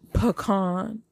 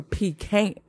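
First: "pecan" said puh-KAHN; pronunciation option. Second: "pecan" said PEE-can; pronunciation option. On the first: Host repeating poll for listeners, "pecan" as puh-KAHN. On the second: Host repeating poll for listeners, "pecan" as PEE-can. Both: Shown as a demonstration.

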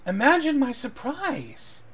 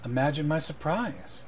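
First: High, slow, sweeping show of surprise; theatrical surprise. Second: Measured lord, little change of voice; understated greeting from a nobleman; lightly voiced lord. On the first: Acted. Eleanor echoes the lord's greeting, theatrical high-pitched surprise. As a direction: draw it out high, hammed-up astonishment. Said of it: "Eleanor goes". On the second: Lord Stoneblade greets Dunce in the shop, understated. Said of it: "He goes".

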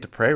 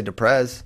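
First: "Dupre" ending in an "ay" sound; "Dupre" with a silent ending, like "du-pray"; correct pronunciation. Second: "Duprez" with a z on the end; "Duprez" with the final consonant sounded; mocked mispronunciation. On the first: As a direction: say "Dupre" with no final z. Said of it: "I get Dupre right". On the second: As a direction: say "Duprez" like "du-prayz". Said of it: "I don't say Duprez like some". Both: Shown as a demonstration.

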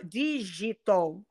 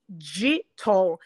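First: Digital com G de português, jeito brasileiro. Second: Digital com G inglês, devagar. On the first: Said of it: "Ele fala digital". (digital aportuguesado) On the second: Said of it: "ele tem dificuldade em fazer". (digital pronunciado à inglesa, lento) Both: Shown as a demonstration.

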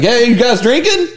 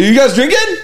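First: Higher goofy party voice; a light mock of an eager lightweight; mimicking his friend. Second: Lightly mocked eager guy; mimicking his friend again. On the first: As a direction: ape how the guy talks. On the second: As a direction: ham up the eager tone. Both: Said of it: "And that's how he talks".

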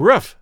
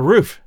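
First: First "roof" said as ruff, short vowel; Midwest pronunciation. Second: Said in the usual way. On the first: Shown as a demonstration. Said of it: "my Midwest education left me saying". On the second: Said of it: "roof for roof".

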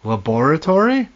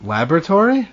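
First: "Laboratory" as la-BOR-a-tory, questioning rise; five-syllable laboratory. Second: "Laboratory" as LAB-ra-tory, stress first, questioning rise. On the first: Co-host echoing the other's pronunciation, stressed la-BOR-a-tory. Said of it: "That's how I say it". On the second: Co-host offering the other pronunciation, stressed LAB-ra-tory. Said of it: "that's not how I say it". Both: Shown as a demonstration.

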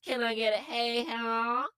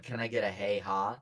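First: Hammy Southern hey ha; Southern accent. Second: Low mocking repeat of hey ha; imitating a line. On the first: Acted. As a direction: drawl out a Southern holler. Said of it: "in Southern accents". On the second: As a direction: parrot it back, deadpan and low. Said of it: "your voice said".

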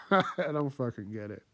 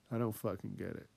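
First: Said in the usual way. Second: Much softer "I don't fucking get it" as an aside to himself; quiet repeat. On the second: Real, not acted. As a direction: mumble it again under your breath. Repeating line, then dropping quiet.

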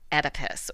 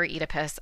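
First: "Oedipus" starting with a short E, as in "Ed". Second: "Oedipus" starting with a long E, as in "eat". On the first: Host names the myth's hero, "Oedipus" said ED-ih-pus. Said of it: "I say Oedipus". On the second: Host offers the alternative name, "Oedipus" said EE-dih-pus. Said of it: "I know other people say Oedipus". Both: Shown as a demonstration.

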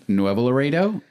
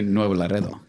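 First: Nuevo Laredo with English luh-RAY-doh; English-style "Nuevo Laredo"; anglicized pronunciation. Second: Nuevo Laredo with Spanish lah-REH-tho; Spanish-style "Nuevo Laredo"; Spanish pronunciation. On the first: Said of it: "Or do you say". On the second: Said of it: "But do you say". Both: Shown as a demonstration.

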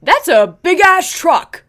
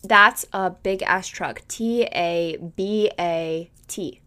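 First: Slow, loud, high mock yell of the passing cyclist; imitating the biker. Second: Slow decoding read. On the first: Friend imitates the bike man yelling at a truck, slow loud mock shout. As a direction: belt it out slowly like the guy on the bike shouting at the truck. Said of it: "and he goes". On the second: Shown as a demonstration. Podcaster decodes the biker's phrase for her cohost, slow, deliberate reading. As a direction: read "That's a big-ass truck." slowly and evenly, weighing each first letter. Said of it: "the beginning letters of each word".

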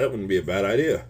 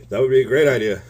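First: Said in the usual way. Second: Louder excited retelling; excited exclaim. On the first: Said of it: "I said". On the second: Retold or imitated. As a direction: burst out with enthusiasm.

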